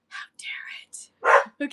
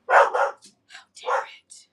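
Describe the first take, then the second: First: Slow whisper pitched higher, playfully indignant; higher mock whisper. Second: Slow, drawn-out whispered how dare it; mock outraged whisper. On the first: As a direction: whisper it again, lighter and higher, half-joking. Repeat of mock outrage. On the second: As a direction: hiss it slowly as if scandalised by a passing car. Mock outrage at passing car.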